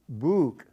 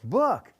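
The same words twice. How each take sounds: First: The vowel is a long oo sound. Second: The vowel is a short uh sound. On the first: The speaker calls it wrong. "Is it book or book? No" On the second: The speaker calls it right. "it's book. And the phoneme is uh"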